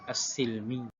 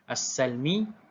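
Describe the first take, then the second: First: The vowel after the s is i. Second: The vowel after the s is a. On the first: This is the other reciters' reading. "Al-Baqun baca dengan as-silmi" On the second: This is one reciters' reading. "baca dengan wa fathu kasin as-silmi"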